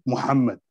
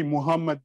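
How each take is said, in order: First: Muhammad said exactly as in Arabic; original Arabic pronunciation. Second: Muhammad as foreigners say it, without the Arabic sounds; non-Arabic pronunciation. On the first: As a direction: give Muhammad its Arabic h and doubled m. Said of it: "I would say it Muhammad". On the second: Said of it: "because they say Muhammad". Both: Shown as a demonstration.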